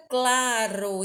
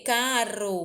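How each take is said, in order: First: "claro" with an L after the C; "claro" drawn out, opening on a clear "cla". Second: "Caro" with no L after the C; "Caro" opening on a simple "ca"; without the L. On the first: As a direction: slowly say "claro", sounding the inserted L. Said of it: "quando eu coloco o L". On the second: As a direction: say "Caro", dropping the L. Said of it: "Se eu tiro o L". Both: Shown as a demonstration.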